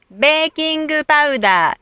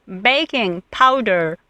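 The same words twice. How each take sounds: First: Baking powder as "beekingu paudaa", with added vowels; baking powder in Japanese katakana style; Japanese katakana pronunciation. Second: Said in the usual way. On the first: Shown as a demonstration. Teacher shows Japanese speakers' baking powder, in katakana pronunciation. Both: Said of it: "Most Japanese cannot hear vowels plus R".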